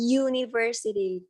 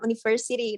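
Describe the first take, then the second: First: It begins with a 'y' sound. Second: It begins with a plain vowel sound. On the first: The speaker calls it right. "pasti depannya kayak ngomong huruf Y" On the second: The speaker calls it wrong. "bacanya bukan university"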